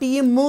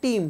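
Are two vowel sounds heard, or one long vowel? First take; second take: two vowels; one long vowel. First: Both vowel letters are sounded separately. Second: One long vowel is sounded, second silent. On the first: The speaker calls it wrong. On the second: The speaker calls it right.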